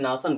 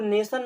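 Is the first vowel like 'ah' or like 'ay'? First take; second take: ah; ay. First: The first vowel sounds like 'ah'. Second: The first vowel sounds like 'ay'. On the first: The speaker calls it wrong. "कितना अजीब लगेगा बोलने में" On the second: The speaker calls it right. "यहाँ पर ए की तरह उच्चारण किया गया"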